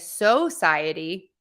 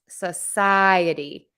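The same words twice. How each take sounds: First: The first syllable has a full 'so' vowel. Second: The first syllable has a reduced schwa vowel. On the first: "I do hear people say society. That's okay too" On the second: "I'm making the so part a sa, which is the schwa because that's unstressed"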